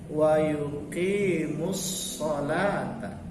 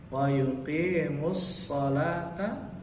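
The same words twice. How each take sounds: Both takes have the same delivery.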